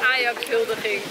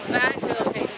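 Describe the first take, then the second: First: The word is articulated clearly with every syllable. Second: The word is mumbled with syllables swallowed. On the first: This is how the word should be said. The speaker calls it right. "Dat is Ajax-huldiging" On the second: This is how the other person says it. The speaker calls it wrong. "Jij zegt Ajax-huldiging"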